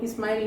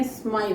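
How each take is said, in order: First: 'स्माइल' with an extra i at the start; wrong 'स्माइल'. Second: 'स्माइल' from a pure s, no leading vowel; correct 'स्माइल'. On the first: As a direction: say 'स्माइल' as ismile. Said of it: "वो स्माइल नहीं है". ('स्माइल' के आगे इ जोड़कर) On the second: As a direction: hold a clean sm starting 'स्माइल'. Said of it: "स्माइल है". ('स्माइल' सीधे स् से शुरू) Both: Shown as a demonstration.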